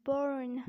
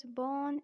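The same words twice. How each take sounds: First: Slow American "burn" for born, R sounded; American accent. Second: British "born", long vowel, silent R; British accent. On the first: Teacher contrasting for learners, American accent on born. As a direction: draw out the R in "burn", as American 'borrn'. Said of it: "But in American accent". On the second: Teacher explaining the last word, British accent. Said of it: "pronounced as born in British accent". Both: Shown as a demonstration.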